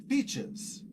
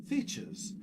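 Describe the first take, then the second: No difference in how they are said.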